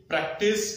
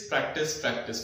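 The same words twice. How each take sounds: First: practice said with a rising, urging lift; first call of practice, lifted like a question; emphatic repeat. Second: practice, practice dropped lower and softer, falling firmly; insistent repeat. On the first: Teacher repeating his advice to students, urging with a rise. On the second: Teacher hammering home his advice to students, low falling repeat. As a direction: drum it in twice, settling down. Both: Shown as a demonstration. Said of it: "मैं वही चीज repeat करूंगा".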